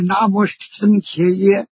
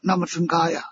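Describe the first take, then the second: First: The final syllable is pronounced ye. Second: The final syllable is pronounced ya. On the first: This is how it is read today. "我们现在念的是" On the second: This is the ancient, original reading. "在古代就是读作"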